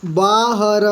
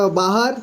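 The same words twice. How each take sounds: First: बाहर split as बा, ह, र; letter by letter. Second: Said in the usual way. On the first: Shown as a demonstration. Teacher reading for beginners, बाहर letter by letter. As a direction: sound out बाहर with a long first syllable. Teacher spells word out, then blends.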